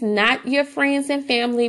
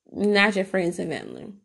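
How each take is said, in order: First: Said in the usual way. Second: "not" leaned on, the rest softer and lower; stress on not. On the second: Shown as a demonstration. Repeating the warning to new mothers, stress on "not". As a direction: hit "not" and let "your friends and family" drop.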